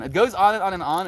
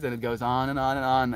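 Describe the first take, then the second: First: GOES punched higher and louder; emphatic repetition. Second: Said in the usual way. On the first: Shown as a demonstration. Driving home to listeners that it never stops, emphatic. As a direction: push "goes on and on and on" up high and loud.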